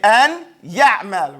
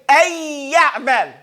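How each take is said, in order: First: The n sound is clearly heard before the y. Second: The n sound merges into a doubled y. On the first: The speaker calls it wrong. "you would not pronounce this" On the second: The speaker calls it right. "you would make idgham of the noon into the ya"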